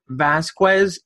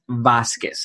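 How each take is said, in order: First: The name has an English-style pronunciation. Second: The name has a Spanish-style pronunciation. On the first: The speaker calls it wrong. "I grew up saying my name as Vasquez" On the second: The speaker calls it right.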